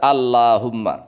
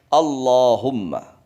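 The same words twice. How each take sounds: First: The l sound is light and thin. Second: The l sound is heavy and dark. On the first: The speaker calls it wrong. "Enggak boleh dibaca Allahumma" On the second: The speaker calls it right. "tapi Allahumma"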